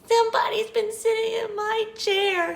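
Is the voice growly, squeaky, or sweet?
squeaky. The voice is high and squeaky. "he squeaked"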